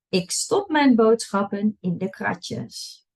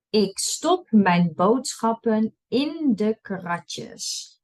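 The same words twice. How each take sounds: First: It is read at a fast pace. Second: It is read at a slow pace. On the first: "and then I'll read it fast" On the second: "I'll read it slow first"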